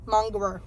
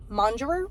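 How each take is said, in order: First: "Mongerer." with a hard g, like "mong-gerer"; hard-g pronunciation. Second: "Mongerer?" with a soft g, like "monjerer"; soft-g pronunciation. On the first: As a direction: settle on "Mongerer." with a hard g, falling. Corrects own pronunciation of word. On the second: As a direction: try "Mongerer?" with a j sound, rising in question. Questions how word is pronounced. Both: Real, not acted.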